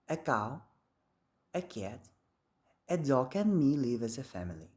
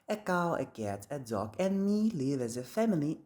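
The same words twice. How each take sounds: First: There is no pause before "and me". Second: The whole list runs on with no pauses. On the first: "in British English, there is no that pause" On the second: "In reality, people make no pause at all"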